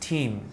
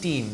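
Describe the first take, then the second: First: The t has a strong puff of breath. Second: The t is flat, with no breath puff. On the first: The speaker calls it right. "they are saying team" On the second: The speaker calls it wrong. "they are not saying team"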